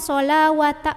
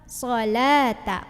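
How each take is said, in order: First: A w sound is pronounced in the middle. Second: No w sound is pronounced in the middle. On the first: The speaker calls it wrong. "bukan sholawata" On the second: The speaker calls it right. "wawnya tidak dibaca"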